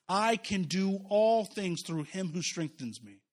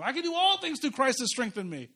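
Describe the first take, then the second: First: Reverent slow reading. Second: Brisk, higher, glib recitation; mock popular quote. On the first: Shown as a demonstration. Preacher reading the verse to the congregation, slow and reverent. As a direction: read slowly and deliberately, lingering on all. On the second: Preacher imitating how people glibly quote the verse, mocking. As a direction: toss it off like a bumper sticker. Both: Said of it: "we quote four thirteen all the time".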